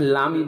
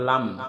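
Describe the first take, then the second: First: The word ends with an added i vowel. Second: The word ends on the m consonant. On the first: The speaker calls it wrong. "অনেকে লামি বলে" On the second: The speaker calls it right. "শব্দটা লাম"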